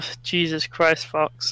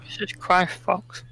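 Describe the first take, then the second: First: It is said in a normal speaking voice. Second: It is said in a breathy anime-girl voice.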